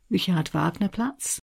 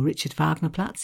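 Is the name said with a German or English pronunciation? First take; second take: German; English. First: It is said with a German pronunciation. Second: It is said with an anglicised pronunciation.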